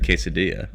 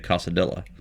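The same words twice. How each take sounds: First: The word gets its ordinary, standard pronunciation. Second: The word gets a deliberately odd, jokey pronunciation. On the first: "instead of quesadilla" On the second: "I'd say quesadilla. ... as a joke"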